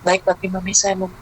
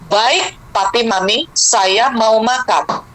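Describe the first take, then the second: First: It is mumbled so the words are unclear. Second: It is spoken firmly with crisp, clear words.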